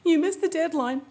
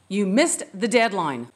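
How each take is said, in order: First: The voice sounds upset and emotional. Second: The voice sounds angry and harsh. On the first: The speaker cannot control their emotions. "Wow, she's so emotional" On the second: The speaker is out of control. "she's so angry, she's out of control"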